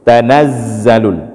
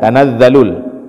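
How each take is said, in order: First: The z sound has a clear hiss. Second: The z sound has little hiss. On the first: The speaker calls it right. "desisnya harus jelas" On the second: The speaker calls it wrong. "kadang dibaca dengan za"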